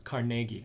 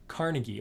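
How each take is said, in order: First: The name is said with a Scottish pronunciation. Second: The name is said without a Scottish pronunciation.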